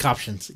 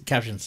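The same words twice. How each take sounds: First: "captions" said as "COP-shuns"; mispronounced vowel. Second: Said in the usual way. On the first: Real, not acted. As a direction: say "captions" with an "ah" in the first syllable, like cop. Odd vowel, then corrects it.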